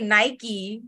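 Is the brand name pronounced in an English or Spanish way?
English. The name is pronounced with English sounds. This is not how it is said in Mexico. "In Mexico, we don't say Nike"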